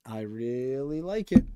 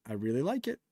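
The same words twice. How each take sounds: First: Slow, stretched "really like it"; drawn-out emphasis. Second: Said in the usual way. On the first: Real, not acted. Streamer stressing his liking for the gun, drawn-out emphasis. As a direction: stretch out "really" and "like", climbing toward "it".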